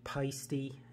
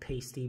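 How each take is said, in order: First: The name is said with a foreign-sounding accent. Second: The name is said with plain English sounds. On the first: This is the proper brand pronunciation. The speaker calls it right. "it's really peisty, and I hate saying that with that stupid accent" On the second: This is the familiar habitual pronunciation. The speaker calls it wrong. "I grew up calling it pasty"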